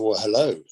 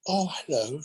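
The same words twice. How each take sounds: First: Said in the usual way. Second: Lightly posh English lady greeting; a hint of a refined English accent, imitating Judi Dench; cultured English. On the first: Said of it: "I said". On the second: Judi Dench greeting him in cultured English. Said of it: "she spoke with a very cultured English".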